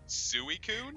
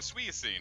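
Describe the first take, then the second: First: The name ends sounding like 'coon'. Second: The name ends sounding like 'seen'. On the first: The speaker calls it right. "I'm like" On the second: The speaker calls it wrong. "They're like, no"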